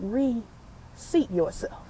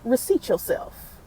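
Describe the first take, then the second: First: It is said slowly. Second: It is said at normal speed.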